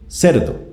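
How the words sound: It is said flatly, as an insulting label. The listener is being called a pig. "en la primera estoy aludiendo a el animal"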